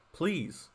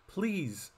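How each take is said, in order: Both takes have the same delivery.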